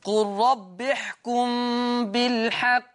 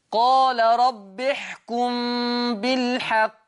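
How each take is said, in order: First: قل said short, no long vowel, slowly chanted; recited with qul. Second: قال said with long aa, slowly chanted; recited with qaal. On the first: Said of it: "وفي قراءة". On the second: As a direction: stretch the vowel in قال like a reciter. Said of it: "قال ده فعل إيه؟ ماضي". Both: Shown as a demonstration.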